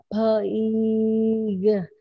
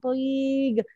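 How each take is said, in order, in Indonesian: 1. Kata itu diucapkan pelan-pelan, bunyi demi bunyi. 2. Kata itu diucapkan cepat sebagai satu kesatuan pendek. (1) "baca panjang" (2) "Lebih cepat Kak. ... pendek jadinya"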